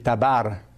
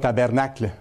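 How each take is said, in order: First: The second syllable has an 'a' vowel, Quebec style. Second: The second syllable has an 'e' vowel, standard French. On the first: This is how people in Quebec say it. "au Québec, on a des accents particuliers... on dit tabarnacle" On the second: This is the form not used in Quebec. "On ne dit pas tabernacle"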